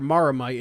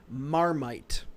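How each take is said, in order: First: The word has three syllables. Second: The word has two syllables. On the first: The speaker calls it wrong. "it's not Maramite" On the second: The speaker calls it right. "it's Marmite. There's no second A"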